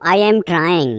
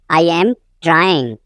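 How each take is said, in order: First: Said in the usual way. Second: Teacher's slow split before "trying"; slow repeat. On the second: Shown as a demonstration. Teacher repeats sentence slowly.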